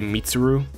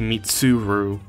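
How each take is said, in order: First: The name is said quickly and run together. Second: The name is said slowly and carefully. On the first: The speaker calls it wrong. "I kind of say it too quickly" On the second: The speaker calls it right. "that's more accurate to how the dub pronounces it"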